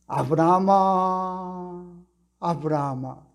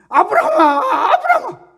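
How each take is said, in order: First: The name is called slowly and leisurely. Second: The name is called quickly and urgently.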